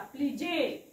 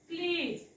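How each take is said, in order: First: It ends with an extra e vowel sound. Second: It ends on the z consonant sound. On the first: The speaker calls it wrong. "पण जे करायचं का नाही" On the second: The speaker calls it right. "इथे पण ईला वाचलेलं नाही"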